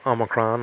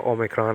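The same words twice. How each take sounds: First: "Omicron" opening on a short ah; "Omicron" with a reduced middle vowel; older pronunciation. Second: "Omicron" opening on a long O; "Omicron" with a round first vowel; current pronunciation. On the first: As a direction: say "Omicron" like AH-muh-cron. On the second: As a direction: say "Omicron" like OH-mi-cron. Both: Shown as a demonstration. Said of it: "now they call Omicron".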